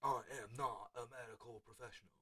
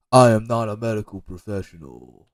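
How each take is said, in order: First: Very soft, distant-sounding disclaimer; hushed mock disclaimer. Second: Mock disclaimer. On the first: Coach repeating his medical disclaimer, very hushed. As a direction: say it far under your usual level. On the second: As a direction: announce it firmly, stretching the words. Mock disclaimer after magnesium advice.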